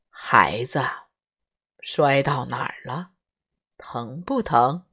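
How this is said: It sounds slow, earnest and solemn. The mother is giving weighty, earnest advice. The speaker calls it wrong. "语重心长地说"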